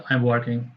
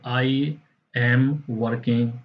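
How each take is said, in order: First: The pitch stays flat, smooth and slow. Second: The pitch rises and falls a lot. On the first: "American pronunciation... वो बिल्कुल flat में आता है और बहुत smooth होता है, स्लो होता है।" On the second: "British accent जो है वो ज़्यादा कर्व है। कर्व मीन्स उतार चढ़ाव उसमें ज़्यादा है।"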